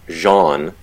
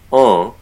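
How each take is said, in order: First: The vowel is plain, like an ordinary English word. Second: The vowel is nasalized, with no final n. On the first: "people frequently will say Jean as a way of anglicizing that pronunciation" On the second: "pronounced en with a nasalized vowel in French"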